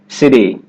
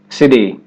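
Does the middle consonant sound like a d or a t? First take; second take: d; d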